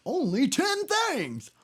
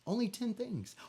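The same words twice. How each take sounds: First: "Only ten things!" stretched out slowly, much higher and louder; cheering a nervous viewer on with "Only ten things!"; emphatic repeat. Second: Said in the usual way. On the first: Shown as a demonstration. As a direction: land hard on "things" to drive it home. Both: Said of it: "It's only ten things that you gotta write down".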